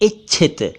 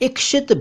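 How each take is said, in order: First: The middle cluster is pronounced with a 'chh' sound. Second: The middle cluster is pronounced with a 'ksh' sound. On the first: The speaker calls it right. "सही शब्द है इच्छित" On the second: The speaker calls it wrong. "इक्षित भी गलत है"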